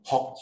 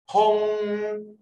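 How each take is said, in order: First: 风 brief with a k stop; short tone. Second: 风 high, loud and drawn out; long tone. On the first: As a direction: cut 风 off at once. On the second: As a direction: hold 风 on a high level note. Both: Shown as a demonstration. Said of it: "长音、短音哦".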